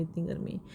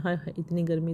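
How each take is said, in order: First: इतनी गर्मी trailed off much softer; a worn-out sigh about the heat; fading sigh. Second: Heat lament. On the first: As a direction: let इतनी गर्मी die away to almost nothing. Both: Real, not acted. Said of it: "मुझे तो सोच सोच के होल पड़ते हैं".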